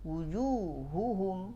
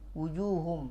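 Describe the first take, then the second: First: Both h sounds are clearly pronounced. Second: One of the two h sounds is dropped. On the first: The speaker calls it right. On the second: The speaker calls it wrong.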